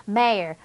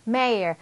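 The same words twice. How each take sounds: Both takes have the same delivery.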